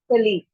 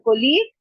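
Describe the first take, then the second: First: "कलीग" as kuh-LEEG; second correct pronunciation. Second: "colleague" as ko-LEEG; first correct pronunciation. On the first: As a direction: say "कलीग" with a short neutral first vowel. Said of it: "क का sound आता है". ("कलीग" में क का sound) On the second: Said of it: "दो तरीके से होता है". ("colleague" को कोलीग बोलें) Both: Shown as a demonstration.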